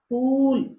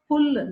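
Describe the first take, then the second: First: The vowel is held long. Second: The vowel is cut short. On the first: The speaker calls it right. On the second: The speaker calls it wrong.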